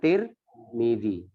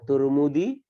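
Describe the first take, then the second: First: The first syllable has the vowel i. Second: The first syllable has the vowel u. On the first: "boleh dibaca Tirmidzi" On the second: "boleh dibaca Turmudi"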